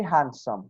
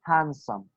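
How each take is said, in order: First: "handsome" with a clear d, hand-some; the careful, over-spelled "handsome" teachers warn against; wrong way. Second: "handsome" as han-some, d silent; right way. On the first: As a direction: sound the d in "handsome". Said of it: "we do not say handsome". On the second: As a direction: drop the d in "handsome". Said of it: "we say handsome". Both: Shown as a demonstration.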